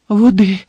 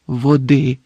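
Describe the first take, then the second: First: High, loud, urgent echo; breathless repetition. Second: Understated hoarse request; weak croak. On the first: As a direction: repeat it in breathless alarm. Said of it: "задихано повторив Гаррі". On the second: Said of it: "прохрипів Дамблдор". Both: A narrator's reading.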